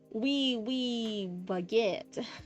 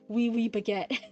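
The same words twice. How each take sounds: First: It is said in an Americanized accent. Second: It is said without an American accent.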